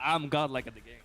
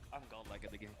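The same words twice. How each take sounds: First: It is said louder, with more energy. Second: It is said at normal, quieter volume.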